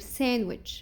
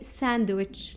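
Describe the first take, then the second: First: The D sound is silent in the word. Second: The D sound is pronounced in the word. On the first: The speaker calls it right. "just say sandwich" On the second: The speaker calls it wrong. "don't say sandwich"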